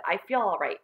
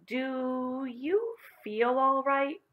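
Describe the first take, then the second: First: Said in the usual way. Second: Very slow, high, careful question; drawn-out teacher's question, pitched up; slowly. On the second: A narrator's reading. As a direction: stretch each word out with wary concern. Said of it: "said Miss Plimsoll slowly".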